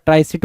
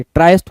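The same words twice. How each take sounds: First: ट्राइसिट in two beats, "try-sit"; misspelt pronunciation. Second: Said in the usual way. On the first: Shown as a demonstration. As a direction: add an i sound before the final t in ट्राइसिट. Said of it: "और यहाँ क्या बोल रहा है". (ट्राइसिट, "सिट" की आवाज़ के साथ गलत उच्चारण) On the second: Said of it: "ट्राइस्ट होता है".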